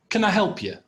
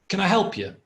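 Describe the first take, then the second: Both takes have the same delivery.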